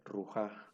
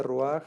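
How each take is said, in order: First: RUJÁ with the J before a final stressed A; lectura no furtiva. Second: RUAJ with the A before the final J; patak furtivo. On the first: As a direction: say rujá ending on the vowel, ru-JA. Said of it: "si no fuera ... se debería leer". (rujá con la consonante antes de la A final) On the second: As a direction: say ruaj ending on the rasped consonant, ru-AJ. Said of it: "se translitera la A antes de la última consonante". (ruaj con la A antes de la J final) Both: Shown as a demonstration.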